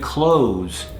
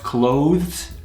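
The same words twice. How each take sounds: First: The word is said in a reduced casual form. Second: The word is said in its full careful form. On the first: "many people say" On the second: "which is proper"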